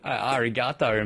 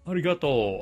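First: The vowels sound anglicized, like an English speaker's. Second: The vowels sound like clear, pure Japanese vowels. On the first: The speaker calls it wrong. "you sound like my dad" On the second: The speaker calls it right. "please learn your vowel sounds"

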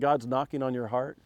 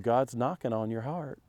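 First: It is said in a plain, neutral accent. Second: It is said in a Southern accent.

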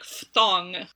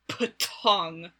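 First: The word begins with an f sound. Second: The word begins with aspirated p and t sounds.

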